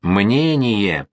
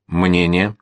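First: Drawn-out bark, restrained in volume; barked demand. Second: Gloomy, understated question. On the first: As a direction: bark the word into a deaf man's ear, stretching it. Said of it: "гаркнул генерал в левое ухо пушкаря". (гаркнуть, растягивая слово) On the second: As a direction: ask it glumly, with restraint. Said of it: "спросил Слащёв угрюмо". (угрюмо, сдержанно) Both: A narrator's reading.

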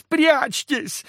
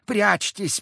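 First: Higher and louder, near a cry; louder urging. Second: High woman's voice urging; first call to hide, high. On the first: Unseen woman repeats her warning, higher and louder. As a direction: repeat it more desperately. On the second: Unseen woman echoes Zakhar, urging them to hide. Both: A narrator's reading. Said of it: "вторила ему невидимая и неосязаемая женщина".

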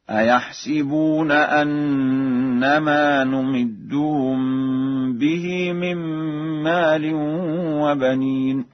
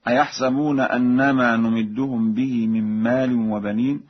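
First: Slow, higher chant, "أيحسبون" as "a-yahsiboon"; Warsh recitation. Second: Said in the usual way. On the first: Shown as a demonstration. Teacher showing Warsh's kasra in "أيحسبون", said "a-yahsiboon" in slow recitation. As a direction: put kasra on the seen of "أيحسبون", "si". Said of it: "بكسر السين هكذا". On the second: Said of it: "يحسبون بكسر السين هكذا".

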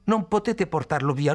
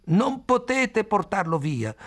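First: Raised, urgent shout; shouting plea. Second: Very high, slow anguished yell; screaming. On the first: Khalil begging the grandmother, raised urgent shout. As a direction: beg them not to take him. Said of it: "gridò". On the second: Khalil screaming at the family, very high and slow. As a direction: scream it out, stretched and desperate. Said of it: "urlò Khalil". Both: A narrator's reading.

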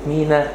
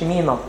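First: مينا ending in a light front "ae"; plain, light final vowel on مينا; ordinary alef. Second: مينا ending in a broad back "aa"; soft مينا with a heavy final A; Coptic pronunciation. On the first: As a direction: say مينا as "MEE-nae". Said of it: "لكن ما نقولش مينا". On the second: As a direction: say مينا as "MEE-nah", softly. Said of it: "بينطقها قبطي". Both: Shown as a demonstration.

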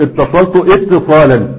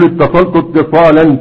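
First: "اتصلت اتصالا" split as ittasaltu, ittisalan; wrongly sounded hamza. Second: "اتصلت اتصالا" joined as ittasaltu-ttisalan; linked hamzat wasl. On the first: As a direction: sound a glottal i at the start of "اتصالا". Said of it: "ولا تقل". (قطع همزة "اتصالا" بعد الفعل) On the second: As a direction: drop the hamza of "اتصالا", gliding out of the verb. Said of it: "تقول". (وصل "اتصلت اتصالا" دون همزة) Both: Shown as a demonstration.

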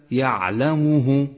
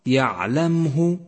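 First: يعلمه slow, with the م wrongly given u; wrong u vowel. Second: يعلمه slow, with no vowel on م; correct recitation. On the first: Teacher demonstrating the common error. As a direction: show the mistake: mu in يعلمه. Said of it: "وهذا خطأ شائع". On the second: Teacher giving students the correct version. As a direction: say يعلمه with a silent م. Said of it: "وليس". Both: Shown as a demonstration.

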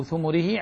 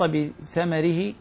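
First: ثمره said "thumurihi"; short U on th and M in ثمره; thumurihi, U vowels. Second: بثمره said "bi-thamarihi"; short A on th and M in بثمره; thamarihi, A vowels. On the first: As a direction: read ثمره as "thu-mu-ri-hi". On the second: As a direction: read بثمره as "bi-tha-ma-ri-hi". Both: Shown as a demonstration. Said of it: "أو ثمره".

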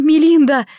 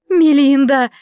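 First: Loud, high trembling cry; trembling plea. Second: Loud, high pleading call; pleading cry. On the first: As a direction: plead with a shaking voice. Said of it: "дрожащим голосом умоляла Клара". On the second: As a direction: beg her by name. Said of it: "просила она". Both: A narrator's reading.

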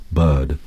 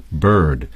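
First: "bird" without the r, a long "buhd"; British bird. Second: "bird" with a full r-coloured vowel; American bird. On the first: Guest imitates the English "bird" with no r. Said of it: "an English would say something like bird". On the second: Guest shows the American "bird" with a strong r. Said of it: "like an American would". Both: Shown as a demonstration.

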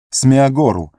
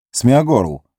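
First: High desperate shout; desperate call. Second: Calling out louder. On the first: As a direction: call out in despair. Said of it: "В отчаянии Фродо". (отчаянный зов) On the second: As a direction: call his name a bit louder. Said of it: "окликнул он громче". (зовёт громче) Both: Acted.

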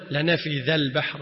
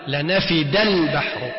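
First: Soft "th" as in "this" in ذا; dhal instead of dal. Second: Slow, hard "d" in لنفد; clear dal. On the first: Teacher showing the imams' misreading, dhal sound in ذا. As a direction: say ذا with the tongue between the teeth. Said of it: "غلط". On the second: Teacher showing the correct reading, clearly sounded dal. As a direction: make the dal in لنفد a plain, distinct d. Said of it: "أظهر الدال المهملة". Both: Shown as a demonstration.

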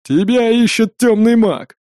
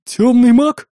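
First: Slow loud growl, stress on тёмный; growling dog voice. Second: High, loud fearful question; frightened. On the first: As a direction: growl out тёмный, drawn out and heavy. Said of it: "прорычала она с ехидной усмешкой". (рычит, выделяя «тёмный») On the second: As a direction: ask in sudden fright, rising on маг. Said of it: "испуганно спросила трактирщица". (испуганно) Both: A narrator's reading.

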